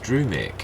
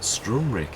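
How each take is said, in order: First: No extra r sound follows the first syllable. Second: An extra r sound follows the first syllable. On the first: The speaker calls it right. "There's no other R in it" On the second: The speaker calls it wrong. "it's not Strumrick"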